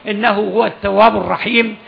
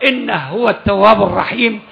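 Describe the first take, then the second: No difference in how they are said.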